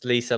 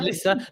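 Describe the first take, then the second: First: The first vowel is long, as in 'bee'. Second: The first vowel is short, as in 'miss'. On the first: The name is short for Elizabeth. "like Elizabeth" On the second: The name is short for Melissa. "Like Melissa"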